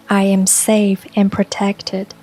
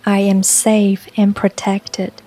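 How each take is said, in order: Both takes have the same delivery.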